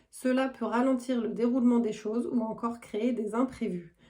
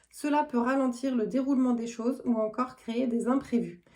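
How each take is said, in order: The two takes are said the same way.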